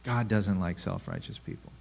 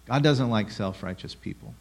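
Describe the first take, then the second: First: Softer, stress falling on "God"; hushed confirmation with "God" weighted; quiet repeat. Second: Rising stress on "doesn't"; flat-out declaration, "doesn't" pushed up; bold statement. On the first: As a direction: drop the volume and land on "God" as you restate it. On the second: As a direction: lean on "doesn't" with a lift, daring them to disagree. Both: Shown as a demonstration. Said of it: "There, I said it".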